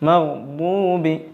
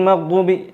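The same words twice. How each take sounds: First: The d sound is drawn out slightly. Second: The d sound is short and clipped. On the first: The speaker calls it right. "ഒരല്പം ഒന്നിങ്ങനെ ശബ്ദം നീളുന്ന വിധത്തിൽ" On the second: The speaker calls it wrong. "എന്ന് പറയാൻ പറ്റൂല"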